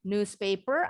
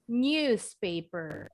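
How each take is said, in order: First: The first syllable starts with a plain n sound. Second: The first syllable starts with an ny sound. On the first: "Bacanya boleh news dengan huruf N" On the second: "atau dengan bunyi huruf N Y"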